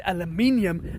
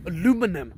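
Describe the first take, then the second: First: Aluminium with five syllables, al-u-MIN-i-um; British aluminium. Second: Aluminum with four syllables, a-LU-mi-num; American aluminum. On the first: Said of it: "and you say aluminum". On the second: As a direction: stress LU in aluminum. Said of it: "And I will say aluminium". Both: Shown as a demonstration.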